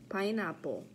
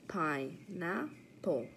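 First: Said in the usual way. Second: Pineapple split into pine-a-pple with gaps; syllable by syllable. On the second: Shown as a demonstration. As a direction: count out three beats in Pineapple. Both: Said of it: "practice our counting syllables".

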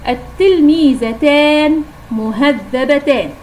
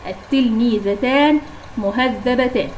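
First: Slow, deliberate reading of التلميذتان مهذبتان, each word drawn out; slow dictation. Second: Said in the usual way. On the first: Shown as a demonstration. Teacher dictating the example to pupils, slow and clear. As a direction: spell it out slowly for the class. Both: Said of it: "مثال الآخر".

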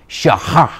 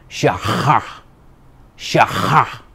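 First: "Shaha" as SHAH-hah with a rising end; Hebrew word demo. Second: "Shaha" with a guttural Hebrew ch, toothpaste mouth; hammed-up Hebrew accent on "Shaha", throaty h. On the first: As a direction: model "Shaha" for the class, ending up. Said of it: "Try pronouncing that". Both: Shown as a demonstration.

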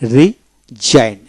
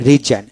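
First: রিজাইন drawn out slowly, silent g, ree-zine; teacher stretches রিজাইন slowly so students hear no g; slow model word. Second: Said in the usual way. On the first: Shown as a demonstration. Teacher modeling রিজাইন for learners, slow and stretched. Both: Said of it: "শেষের ই উচ্চারিত হলো না".

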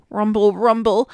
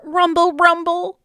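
First: Low rumbling tummy noise; lower tummy growl. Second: Tummy growl. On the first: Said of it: "his tummy growled". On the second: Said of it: "His tummy growled". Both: Acted.

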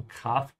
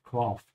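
First: Kraft with the mouth wide open on a long, open A. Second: Kraft with a flat English A, as in craft; English-style A. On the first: Teacher modelling the correct German A in Kraft. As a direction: stretch the A in Kraft: Krahft. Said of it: "open your mouth wide on the A". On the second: Teacher imitating an English speaker's Kraft. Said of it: "especially if you're an English speaker". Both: Shown as a demonstration.

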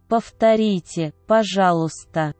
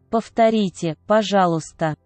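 Both takes have the same delivery.

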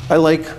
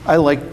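No difference in how they are said.

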